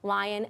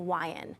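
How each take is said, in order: First: The word begins with a clear L sound. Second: The word begins with a W sound. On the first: The speaker calls it right. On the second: The speaker calls it wrong.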